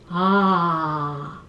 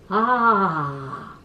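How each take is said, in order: First: It is said at a low pitch. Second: It is said at a low pitch.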